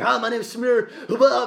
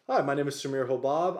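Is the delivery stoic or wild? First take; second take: wild; stoic. First: It is said in a wild, over-the-top way. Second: It is said in a calm, stoic, professional way.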